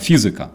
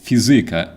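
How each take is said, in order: First: The stress follows the Ukrainian pattern. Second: The stress follows the Polish pattern. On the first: "Physics is physica in Ukrainian" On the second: "In Polish, it's fizyka"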